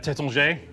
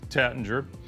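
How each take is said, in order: First: The name is said with a French pronunciation. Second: The name is said with an American pronunciation. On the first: "the the the French say uh" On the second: "in America uh, we might say Tattinger"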